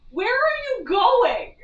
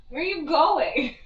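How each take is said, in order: First: High, slow pet voice; pet talk. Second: Said in the usual way. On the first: Real, not acted. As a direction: coo slowly at the wandering cat.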